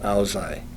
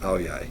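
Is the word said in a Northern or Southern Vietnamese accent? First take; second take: Northern; Southern. First: Northern accent, tongue forward, crisp and clear. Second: Southern accent, tongue farther back, less distinct. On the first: "That's a Hanoi uh, pronunciation" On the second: "the South pronunciation would be"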